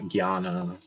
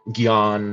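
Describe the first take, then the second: First: The word ends with a final 'a' vowel. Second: The word ends on a consonant, without final vowel. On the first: "not Gyana"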